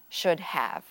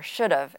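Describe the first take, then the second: First: Have is said in full as a separate word. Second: Have is shortened and joined onto should. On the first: "instead of" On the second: "we'd say"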